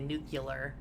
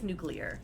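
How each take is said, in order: First: It is said as nu-cu-lar. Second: It is said as nu-clear. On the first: The speaker calls it wrong. "George Bush used to say it wrong, and he would say nuclear" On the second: The speaker calls it right. "It is nuclear"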